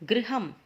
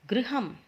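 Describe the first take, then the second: The two takes are said the same way.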